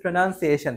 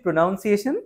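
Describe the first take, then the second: First: Pronunciation with "nun" in the middle; corrected pronunciation. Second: Pronunciation said as "pro-noun-siation"; mispronounced pronunciation. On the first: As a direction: model pronunciation as "pro-nun-see-ay-shun". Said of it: "না, প্রনাউন্সিয়েশন". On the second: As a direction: put a wrong "noun" sound inside pronunciation. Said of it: "ভুলভাবে প্রনাউন্সিয়েশন করি". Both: Shown as a demonstration.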